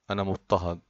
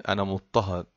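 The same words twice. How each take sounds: The two takes are said the same way.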